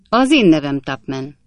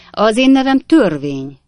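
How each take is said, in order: First: Said in the usual way. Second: Higher and louder, grand self-announcement; pompous lawman. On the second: A narrator's reading. Officer to Tupman, grandly naming himself the Law. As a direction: announce yourself as the Law itself.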